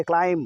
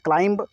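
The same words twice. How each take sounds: First: "क्लाइम" ending on m, no b; silent B. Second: "क्लाइंब" with an audible final b; B sounded at the end. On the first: Teacher correcting students, b left silent. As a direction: stop "क्लाइम" on the m. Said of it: "बी तक नहीं पढ़ेंगे". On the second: Teacher showing the common misreading, b sounded. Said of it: "अक्सर पढ़ते हैं क्लाइंब". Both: Shown as a demonstration.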